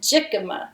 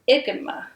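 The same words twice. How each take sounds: First: The word begins with a J sound. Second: The word does not begin with a J sound. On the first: The speaker calls it wrong. "I was calling it jicama because it starts with a J" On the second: The speaker calls it right. "Think that's how you pronounce it"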